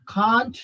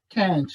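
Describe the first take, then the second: First: CAN'T with a long back "ah"; British pronunciation. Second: CAN'T with a front "a" as in cat; American pronunciation. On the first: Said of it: "The British people". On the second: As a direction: say "can't" as American "kant", drawn out. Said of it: "The American people, they use". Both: Shown as a demonstration.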